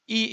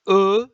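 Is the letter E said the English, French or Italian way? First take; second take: English; French. First: The letter is said the English way. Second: The letter is said the French way. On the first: "E in English" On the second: "in French is E"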